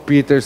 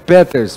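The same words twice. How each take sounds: First: The name is pronounced the English way. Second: The name is pronounced the German way. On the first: The speaker calls it wrong. "se ele fosse inglês" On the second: The speaker calls it right. "a pronúncia certa é Peters, porque ele é alemão"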